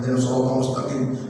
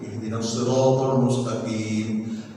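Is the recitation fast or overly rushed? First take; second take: rushed; fast. First: It is recited so rushed that sounds become unclear. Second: It is recited quickly but every sound stays clear. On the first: The pace is faster than the tongue can manage, so the recitation is defective. The speaker calls it wrong. "tempo kecepatan sehingga nggak sanggup lidahnya" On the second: This is the fastest pace that can still be recited correctly. The speaker calls it right. "ini kesanggupan saya"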